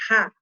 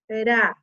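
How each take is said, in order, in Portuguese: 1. O som do R é forte e áspero. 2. O som do R é fraco e leve. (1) "olha o forte" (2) "Olha o fraco"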